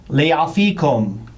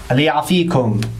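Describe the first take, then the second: The two takes are said the same way.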